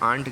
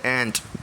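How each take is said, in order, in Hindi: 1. स्वर एक लंबी खुली 'ah' ध्वनि है। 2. स्वर एक छोटी आगे की 'eh' ध्वनि है। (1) "वो आंट गलत प्रोनाउंसिएशन है" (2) "वो एंट है"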